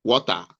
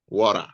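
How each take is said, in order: First: WATER with a crisp T in the middle; the home pronunciation of WATER; own pronunciation. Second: Imitated American WATER; American pronunciation. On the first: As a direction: say "Water" the Nigerian way, clear T, open ending. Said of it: "they call things differently". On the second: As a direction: say "water" the American way, R-coloured ending. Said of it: "I'm not saying start pronouncing water". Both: Shown as a demonstration.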